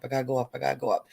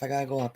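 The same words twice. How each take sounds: First: Fast, lower self-talk to herself; rapid muttered repeat. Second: Said in the usual way. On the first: Real, not acted. Streamer scrolling her chat, rattles it off quickly. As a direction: rattle it off under your breath.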